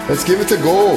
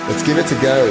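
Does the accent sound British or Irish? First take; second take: Irish; British. First: It is said in an Irish accent. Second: It is said in a British accent.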